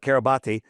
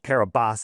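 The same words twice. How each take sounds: First: The name is said as it is spelled. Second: The name is said the local way.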